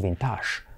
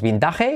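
First: Vintage as bin-TASH; imitated foreign pronunciation. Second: Vintage read as Spanish bin-TA-he; Spanish spelling pronunciation. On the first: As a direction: stress the end of vintage, French-like sh. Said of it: "y decimos vintage". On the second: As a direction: say vintage in three syllables with a Spanish j. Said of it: "ya no decimos vintage". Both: Shown as a demonstration.

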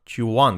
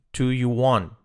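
First: "do you want" squeezed into "chu want"; quick reduced form. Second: "Do you want" with each word separate; full form. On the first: Teacher showing fast speech, reduced "do you want". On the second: Teacher showing the careful version, full "Do you want". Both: Shown as a demonstration. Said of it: "dicho rápido".

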